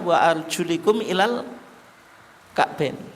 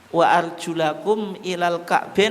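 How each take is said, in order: First: The vowel after the L is 'i'. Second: The vowel after the L is 'a'. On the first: "Lamnya tidak difathahkan, bukan bi fathil lam tapi apa? Bi kasril lam" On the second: "bukan bi fathil lam"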